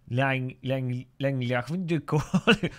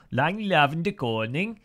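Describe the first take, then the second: First: Mock Dutch voice, halting start; amateur imitation of a Dutch speaker; Dutch accent. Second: Dutch phrase in a mock Danish accent; imitated Danish lilt, rising at the end. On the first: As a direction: have a stab at sounding Dutch. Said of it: "The Dutch would be like". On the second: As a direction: have a go at a Danish-sounding delivery. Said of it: "that was how the, that was how the, uh, Danish say it". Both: Shown as a demonstration.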